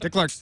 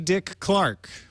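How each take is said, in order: First: It is said quickly, with no gap before Clark. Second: It is said slowly, with a gap before Clark. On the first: "I'll say it faster this time" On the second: "I got really hung up waiting for you to say Clark"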